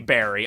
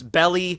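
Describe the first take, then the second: First: The middle consonant sounds like an R. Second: The middle consonant sounds like an L. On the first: This is the English dub form. "so I'm just gonna say berry" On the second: This is the original Japanese form. "in the Japanese, the way that you would pronounce that is belly"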